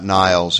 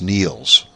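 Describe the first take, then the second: First: The name is said with an 'eye' vowel. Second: The name is said with an 'ee' vowel. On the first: The speaker calls it wrong. "It's not Niles" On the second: The speaker calls it right. "it's Niels"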